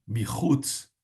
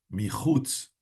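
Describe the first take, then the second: No difference in how they are said.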